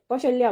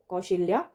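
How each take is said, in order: First: कौशल्या with short a in the middle; correct pronunciation. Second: कौशल्या with i in the middle; wrong pronunciation. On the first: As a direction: say कौशल्या as kau-shal-ya. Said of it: "कौशल्या बोलते हैं". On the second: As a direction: say कौशल्या as kau-shil-ya. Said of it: "ऐसे नहीं लिखते". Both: Shown as a demonstration.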